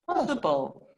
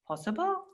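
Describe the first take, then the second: First: The voice falls at the end, like a statement. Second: The voice rises at the end, like a question. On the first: The speaker is answering that it is possible. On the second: The speaker is asking whether it is possible.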